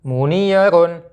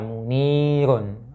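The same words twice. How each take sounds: First: The vowel is kept short. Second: The vowel is drawn out long. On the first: The speaker calls it right. "Jadi bacanya tidak dipan tidak dipanjangkan" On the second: The speaker calls it wrong. "tidak dibaca munirun"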